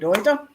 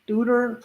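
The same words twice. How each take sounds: First: The name is said with a German pronunciation. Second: The name is said with an American pronunciation. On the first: The speaker calls it right. "because I'm Deutsch and I'm pronouncing it properly" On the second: The speaker calls it wrong. "I think Americans would say"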